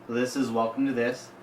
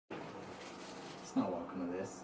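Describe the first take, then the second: First: Said in the usual way. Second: Slow, breathy whispered correction; mock secret whisper. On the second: Co-host hisses the wrong show title back, slow mock whisper. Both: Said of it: "It's Listen to This".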